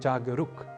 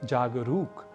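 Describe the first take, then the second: First: The u vowel is short. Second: The u vowel is long. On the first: The speaker calls it wrong. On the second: The speaker calls it right.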